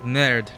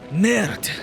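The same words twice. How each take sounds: First: The word is said with an English pronunciation. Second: The word is said with a French pronunciation. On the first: The speaker calls it wrong. "So it's like" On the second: The speaker calls it right. "No, no, no"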